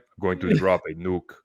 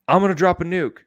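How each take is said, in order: First: It is said in a put-on Russian accent. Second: It is said in the speaker's ordinary accent.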